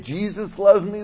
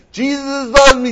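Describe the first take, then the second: First: Lightly sung "Jesus loves me", a little higher; imitating a child singing. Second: "Jesus loves me" higher and louder, slurred like babbling in tongues; mock tongues. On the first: Grandpa imitating his granddaughter singing on video, lightly sung. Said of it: "she starts off singing". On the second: Grandpa imitating his granddaughter speaking in tongues, higher and louder. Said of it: "Then she starts speaking in tongues".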